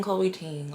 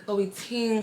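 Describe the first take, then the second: First: Said in the usual way. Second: Playful emphasis. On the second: Shown as a demonstration. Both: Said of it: "playful repetition of the name".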